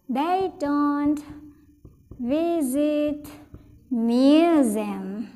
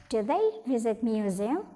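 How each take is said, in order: First: Slow model sentence. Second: Said in the usual way. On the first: Shown as a demonstration.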